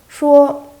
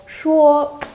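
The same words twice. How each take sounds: No difference in how they are said.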